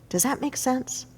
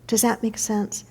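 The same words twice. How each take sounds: The two takes are said the same way.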